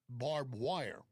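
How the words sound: It is said in a neutral accent. "clean up the Texas accent"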